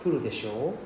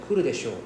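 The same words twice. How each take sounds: First: Kuru desho? with the end rising; rising question. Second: Kuru desho said flat and falling; falling statement. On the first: Teacher showing the same words as a question, rising. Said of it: "you're already asking question already". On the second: Teacher contrasting statement and question intonation, falling. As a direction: let kuru desho drop at the end. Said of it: "usually the intonation". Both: Shown as a demonstration.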